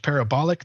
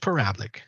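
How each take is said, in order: First: The word is said with all four syllables. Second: The word is said with only three syllables. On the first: "I say it both ways" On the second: "I said parablic"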